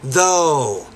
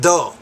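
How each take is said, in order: First: The vowel is drawn out and long. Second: The vowel is clipped and short. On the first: The speaker calls it right. "making that second vowel sound longer" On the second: The speaker calls it wrong. "not though"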